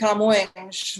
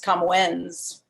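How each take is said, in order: First: The name is said with Portuguese pronunciation. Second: The name is said with American pronunciation.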